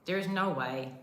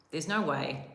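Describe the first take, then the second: First: There IS no way, IS leaned on and a bit higher; There IS no way, insistent disbelief; stress on is. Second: Said in the usual way. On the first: Retold or imitated. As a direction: hit IS in There is no way. Repeats with emphasis, disbelieving.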